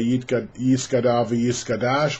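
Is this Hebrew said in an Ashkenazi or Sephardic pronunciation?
Ashkenazi. It is said in an Ashkenazi Hebrew pronunciation.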